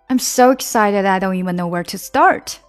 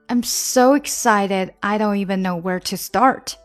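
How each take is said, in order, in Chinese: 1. 这个句子说得更快一些。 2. 这个句子说得是中速。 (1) "再加快点啊" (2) "那我们整句来吧"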